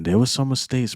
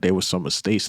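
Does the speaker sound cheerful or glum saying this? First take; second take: cheerful; glum. First: It is said cheerfully, with a smiling tone. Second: It is said glumly, with a frowning tone. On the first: The mistakes are behind them and things look good. "this time he said it with a smile" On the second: The mistakes are a source of regret. "he was saying it with like a frown"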